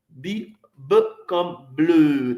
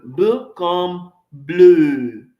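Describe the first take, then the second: First: Said in the usual way. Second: "B comme bleu" drawn out slowly and louder, every sound clear; slow, loud teacher's demo of "B comme bleu"; slow model pronunciation. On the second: Shown as a demonstration. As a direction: spell out "B comme bleu" slowly for learners to copy. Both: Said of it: "Répétez après moi".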